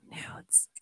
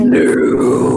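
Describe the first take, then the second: First: Breathy whispered word. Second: Mock seductive breathy voice; sexy voice. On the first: Pretend. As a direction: whisper it like a secret. Whispered teasing. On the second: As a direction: say it sexy, half-joking. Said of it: "That was my sexy voice".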